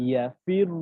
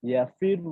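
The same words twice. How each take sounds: Both takes have the same delivery.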